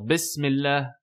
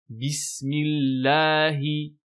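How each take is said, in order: First: The final vowel sounds like e. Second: The final vowel is a clear i. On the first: The speaker calls it wrong. "on entend bismillah" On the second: The speaker calls it right. "non, bismillahi"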